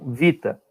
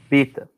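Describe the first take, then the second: First: The word begins with a V sound. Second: The word begins with a B sound. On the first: This is the Modern Greek pronunciation. "no grego moderno, ela tem som de V. Então ele fala vita" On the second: This is the Koine Greek pronunciation. "o fonema dela é B também"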